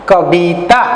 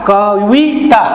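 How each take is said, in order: First: The middle consonant is a B sound. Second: The middle consonant is a V sound. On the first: "तो उड़िया में कैसा होगा?" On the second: "और एक शब्द है कविता"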